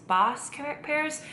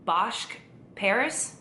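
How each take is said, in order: First: Bosch said as "bosk", with a hard sk, pitched up; second guess, "Bosch" ending in sk, high and questioning; unsure pronunciation. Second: Bosch said with a final "sh", as a tentative question; unsure pronunciation. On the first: Vlogger trying another name for the pear, unsure "bosk" for Bosch. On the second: Vlogger guessing at a pear's name, unsure pronunciation with "sh" in Bosch. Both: Shown as a demonstration. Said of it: "probably gonna butcher it".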